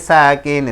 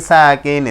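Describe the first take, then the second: The two takes are said the same way.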